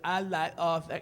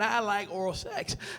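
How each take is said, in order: First: It is said as if through a pierced tongue. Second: It is said in a clear, normal voice.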